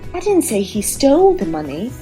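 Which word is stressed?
stole. The word "stole" carries the main stress. He took the money but did not steal it. "means I think he didn't steal the money, maybe he borrowed it"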